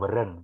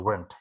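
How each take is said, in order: First: The word is said with two syllables. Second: The word is said with one syllable. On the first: The speaker calls it wrong. "bukan weren't" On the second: The speaker calls it right. "satu suku kata saja"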